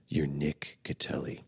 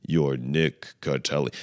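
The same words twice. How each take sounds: First: Hushed, slow, low affirmation; near-whisper it slowly, like a hypnotist; hypnotherapy affirmation. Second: Slow, low, full-voiced chant; say-along affirmation. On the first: Acted. Hypnotherapy video telling himself who he is, hushed affirmation. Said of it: "like, a hypnotherapy". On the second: Self-help video leading a repeat-after-me line, slow intoned affirmation. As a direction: intone it deliberately for someone to repeat. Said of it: "Say that with me".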